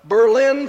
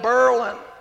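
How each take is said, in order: First: It is said the ordinary way, unlike Merlin. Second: It is said to rhyme with Merlin. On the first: This is the usual pronunciation of the city name. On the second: This is how the locals pronounce the town name.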